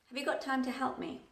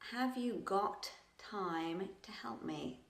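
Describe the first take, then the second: First: It is said smoothly at a relaxed, natural pace. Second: It is said slowly and robotically, word by word. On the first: It sounds polite and relaxed. The speaker calls it right. "I didn't pronounce the T at the end of got" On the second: It sounds less polite and relaxed. The speaker calls it wrong. "If I slowed down, it would probably sound a bit robotic"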